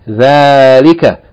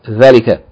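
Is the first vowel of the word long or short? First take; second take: long; short. First: The first vowel is held long. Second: The first vowel is kept short. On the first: The speaker calls it right. "dhalika is pronounced as though there's an aleph elongating the fatha of the first letter, dhal. So it should be read" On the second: The speaker calls it wrong. "not dhalika"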